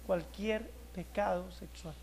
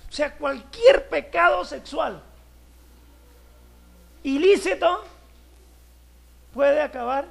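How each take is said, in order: First: Cualquier pecado sexual dicho despacio y muy bajo; slow, hushed emphasis. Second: Cualquier pecado sexual ilícito higher and louder, slowly; loud slow emphasis. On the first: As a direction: drop to a grave hush. ("cualquier pecado sexual" lento y en voz baja, remarcando cada palabra) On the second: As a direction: hammer the point to the congregation. ("cualquier pecado sexual" lento, más alto y fuerte, recalcando cada palabra) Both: Acted. Pastor stressing the key phrase.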